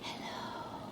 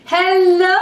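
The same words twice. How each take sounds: First: It is said very quietly. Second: It is said very loudly.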